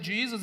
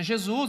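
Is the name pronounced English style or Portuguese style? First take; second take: English; Portuguese. First: The name is said with an English pronunciation. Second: The name is said with a Portuguese pronunciation. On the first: An American speaker says it this way. "se você é americano pronuncia Jesus" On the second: A Brazilian speaker says it this way. "se você é brasileiro pronuncia Jesus"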